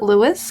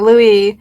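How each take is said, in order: First: The name ends with an s sound. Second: The name ends with an ee sound. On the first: "but I think it's Lewis" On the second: "I pronounced it Louis in the book"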